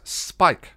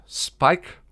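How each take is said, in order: First: High, loud exclaimed "Spike"; "Spike" as an emphatic command, not a question; insistent call. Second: High "Spike" with a rising, questioning end; "Spike" called out, tune lifting. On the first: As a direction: call "Spike" firmly to jolt someone awake. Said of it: "shook a little harder when he got no response". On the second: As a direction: call "Spike" as a question to rouse someone. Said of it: "shook the vampire on the shoulder". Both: A narrator's reading.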